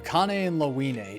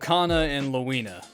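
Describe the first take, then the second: First: The names end with an 'a' vowel sound. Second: The names end with an 'uh' vowel sound. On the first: The speaker calls it wrong. "not an a sound" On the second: The speaker calls it right. "It's with an uh sound"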